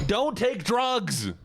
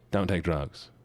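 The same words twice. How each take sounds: First: High, drawn-out cry of warning; emphatic warning. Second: Said in the usual way. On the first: Real, not acted. Streamer warning chat off drugs, emphatic high wail. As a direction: stretch every word out, pitched way up. Mock PSA outburst, then repeated calmly.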